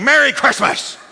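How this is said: It is said in an angry, bitter tone. The greeting is given out of resentment. The speaker calls it wrong. "Don't say it like you're mad. Don't say it like you're bitter"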